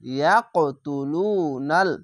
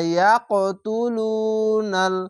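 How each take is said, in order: First: The word is broken into separate syllable chunks. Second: The word is read smoothly as one joined unit. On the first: "এই উচ্চারণটি একটি ভেঙে পড়লাম" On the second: "আমি যদি পড়ি মিলিয়ে"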